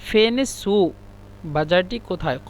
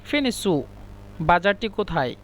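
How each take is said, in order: No difference in how they are said.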